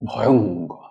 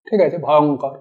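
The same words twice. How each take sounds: First: ভয়ঙ্কর dropped low, dipping on অং and rising on কর; ভয়ঙ্কর growled lower, with a menacing dip; sounding terrible. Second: Said in the usual way. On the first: Shown as a demonstration. Teacher shows how ভয়ঙ্কর conveys terror. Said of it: "ভয়ঙ্করতাটা বোঝানোর জন্য". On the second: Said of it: "পরিষ্কার স্পষ্ট উচ্চারণ".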